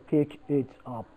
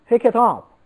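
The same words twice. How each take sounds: First: The words are said separately, without linking. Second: The words are linked smoothly into one unit. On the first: The speaker calls it wrong. "You do not say pick it up" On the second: The speaker calls it right. "we link two sounds"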